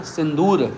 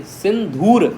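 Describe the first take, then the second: First: सिंदूर with a plain d, the form to avoid; wrong pronunciation shown. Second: सिंधूर with aspirated dh: sin-dhoor; correct pronunciation. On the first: Teacher warning students against saying सिंदूर. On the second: Teacher giving students the right word सिंधूर. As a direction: breathe out on the dh of सिंधूर. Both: Shown as a demonstration. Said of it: "सिंदूर नहीं".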